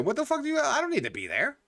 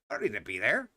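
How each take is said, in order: First: High, incredulous mock protest; pitched way up in fake disbelief at a friend; mock outraged squeal. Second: Same words dropped low and soft, flat finality; low deadpan repeat. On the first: Telling off a friend who asks where he went, high mock outrage. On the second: Retold or imitated. Repeating the excuse to a friend, low and soft deadpan. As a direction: mutter it low like the matter's closed.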